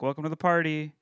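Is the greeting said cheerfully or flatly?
flatly. The greeting sounds flat and unenthusiastic.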